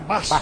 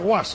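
First: The name begins with a b sound. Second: The name begins with a gw sound. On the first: The speaker calls it right. "Se dice Bas" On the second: The speaker calls it wrong. "No se dice Guas"

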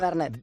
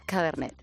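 First: The word is said flat, without expression. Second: The word is said in a sensual, seductive tone. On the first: "me lo has dicho muy plano" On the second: "¿Sensual?"

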